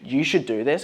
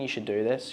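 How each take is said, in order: First: It is spoken firmly with higher intensity. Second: It is spoken hesitantly with low intensity. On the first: The speaker sounds certain and convinced. The speaker calls it right. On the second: The speaker sounds unsure. The speaker calls it wrong.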